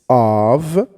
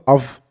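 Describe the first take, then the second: First: The word is said longer and drawn out. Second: The word is said short and clipped. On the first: The speaker calls it right. "I wanted to make it a little longer" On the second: The speaker calls it wrong. "Not of"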